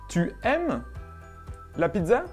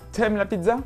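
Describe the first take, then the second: First: The vowel of tu is fully pronounced. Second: The vowel of tu is dropped before aimes. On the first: "Vous avez appris que tu ne fonctionne pas comme ça" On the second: "dans le français d'aujourd'hui, on va dire"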